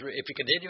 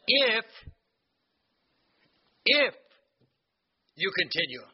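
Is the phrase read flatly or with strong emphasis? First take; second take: flatly; emphasized. First: The phrase is read quickly and flatly. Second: The phrase is read with strong, deliberate emphasis. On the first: The condition is skimmed over as unimportant. The speaker calls it wrong. "we don't put the emphasis right as we read it. It's like we just" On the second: The condition is highlighted as essential. The speaker calls it right. "We got to put the emphasis right here"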